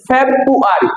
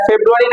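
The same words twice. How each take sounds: First: ফেব্রুয়ারি slowly as FEB-u-ari, first r dropped; correct pronunciation. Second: ফেব্রুয়ারি as feb-ru-a-ri, r sounded; wrong pronunciation. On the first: Teacher showing the right form, correct pronunciation. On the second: Teacher rejecting the usual form, wrong pronunciation. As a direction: say ফেব্রুয়ারি with "bru". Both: Shown as a demonstration. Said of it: "এটা ফেব্রুয়ারি না".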